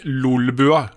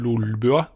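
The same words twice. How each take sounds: First: The L sounds are clear and light. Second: The L sounds are thick and flapped. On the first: The speaker calls it right. "nå skal jeg prøve å si det riktig" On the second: The speaker calls it wrong. "Da kommer den Østfold-L-en inn"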